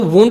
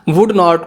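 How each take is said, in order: First: The words are shortened into a contraction. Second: Both words are said in full.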